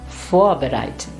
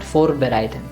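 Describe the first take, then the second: First: The R becomes a soft vowel-like sound. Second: The R is sounded as a clear consonant. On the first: The speaker calls it right. "it is vor, vorbereiten" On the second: The speaker calls it wrong. "and not vorbereiten"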